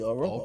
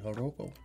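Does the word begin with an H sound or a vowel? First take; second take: vowel; H sound. First: The word begins with a vowel sound. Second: The word begins with an H sound. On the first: The first letter is treated as silent. "the J might not even be there" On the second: The word is read as Spanish. "because it could be Spanish"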